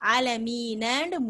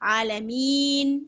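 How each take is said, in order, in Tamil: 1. வார்த்தை குறுகிய இறுதி உயிரொலியில் முடிகிறது. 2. வார்த்தை இறுதி மெய்யெழுத்தில் நின்றுவிடுகிறது. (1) "ஆலமீனு முடியுது" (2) "ஒரு சுக்கூனை நம்மளே வச்சு ஆலமீன் அப்படின்னு நிறுத்துறோம்"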